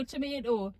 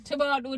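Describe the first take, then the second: First: Tomato with an ay, tuh-MAY-doh, quieter; American tomato. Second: Tomato with a long ah, toh-MAH-toh; British tomato. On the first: Mother contrasts tomato, American pronunciation. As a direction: switch tomato to the American vowel. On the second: Mother shows how she says tomato, British way. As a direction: say Tomato the English way. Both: Shown as a demonstration. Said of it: "How do you say tomato".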